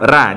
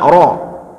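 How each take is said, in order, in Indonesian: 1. Suku kata ro ringan dengan vokal a. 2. Suku kata ro berat dengan vokal o. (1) "bukan ra, jangan dibaca ra" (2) "lebih benarnya kita baca ro"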